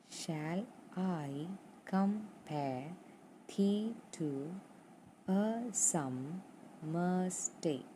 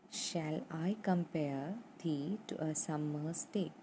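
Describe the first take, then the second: First: "Shall I compare thee to a summer's day?" drawn out very slowly, beat by beat, with an upward lift on "compare" and on "thee"; iambic stress read slowly. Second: Said in the usual way. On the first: Shown as a demonstration. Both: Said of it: "So, unstressed, stressed, unstressed".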